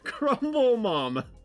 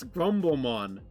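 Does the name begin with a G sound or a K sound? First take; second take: K sound; G sound. First: The name begins with a K sound. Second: The name begins with a G sound. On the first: The speaker calls it wrong. "I pronounced it Crumble Mom" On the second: The speaker calls it right. "It's Grumblemon"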